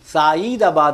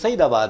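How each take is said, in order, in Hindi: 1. पहला स्वर लंबा खींचा जाता है। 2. पहला स्वर छोटा रखा जाता है। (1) "लेकिन साईदाबाद अब उसे कहा जाने लगा है" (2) "लेकिन हकीकत में सईदाबाद है"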